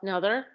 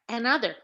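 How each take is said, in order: First: The first vowel is a weak schwa. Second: The first vowel is a full short a. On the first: "Some people pronounce this as a schwa" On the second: "Some people pronounce it an"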